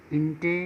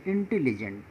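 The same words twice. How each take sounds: First: "intelligent" broken as इंटे, ली, gent with long pauses; syllable by syllable. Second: Said in the usual way. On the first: Shown as a demonstration. Teacher showing three syllables, "intelligent" split by clear pauses. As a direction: sound out "intelligent" in three separate chunks. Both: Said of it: "यहाँ तीन syllable है".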